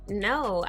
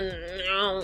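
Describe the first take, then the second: First: The word is said in a calm, polite tone. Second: The word is said in a nasty, harsh tone. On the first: The refusal is firm but courteous. The speaker calls it right. "just politely say" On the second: The refusal provokes a different response. The speaker calls it wrong. "If you deliver it all nasty"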